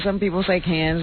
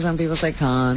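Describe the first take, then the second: First: Can said with a flat a, kan. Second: Can said as con, with an open o. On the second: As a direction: say can like kɑn, the broad ah. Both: Shown as a demonstration.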